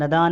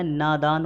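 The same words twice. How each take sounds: First: नदान opening on short "na"; wrong short vowel. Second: नादान opening on long "naa"; long first vowel. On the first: Teacher showing the error, short "na" in नदान. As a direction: clip the first vowel of नदान. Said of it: "नहीं होता है". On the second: Teacher correcting students, long "naa" in नादान. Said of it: "होता है". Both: Shown as a demonstration.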